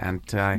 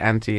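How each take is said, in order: First: The stress is on the second syllable. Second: The stress is on the first syllable.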